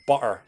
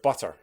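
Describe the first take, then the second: First: The T is replaced by a glottal stop. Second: The T is clearly pronounced. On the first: "west of Scotland people will very commonly say words like butter" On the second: "instead of butter"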